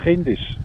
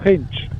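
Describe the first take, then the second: First: The vowel before the final sh is pronounced. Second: The vowel before the final sh is dropped. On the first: This is how the listener says it. "wenn du willst sagen kindisch, sagst du kindisch" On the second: This is how the speaker's own group says it. "Wir sagen es Kindsch"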